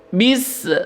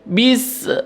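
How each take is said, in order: No difference in how they are said.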